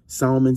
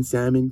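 First: Salmon with the L sounded; own pronunciation. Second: Salmon with the L silent; other pronunciation. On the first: Coach defending his word, salmon said with an L. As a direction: say SAL-mun for salmon, L left in. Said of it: "That's how I say it". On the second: Coach giving listeners' version, salmon said as SAM-un. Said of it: "you said it wrong". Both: Shown as a demonstration.

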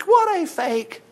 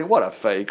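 First: High, very slow mocking repeat of What a fake; preacher mocking the fake tears. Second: Said in the usual way. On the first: Shown as a demonstration. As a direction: drag out What a fake in a sneering sing-song.

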